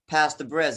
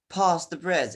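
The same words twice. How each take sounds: First: It is said in an American accent. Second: It is said in a British accent. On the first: "in American accent" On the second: "in British accent"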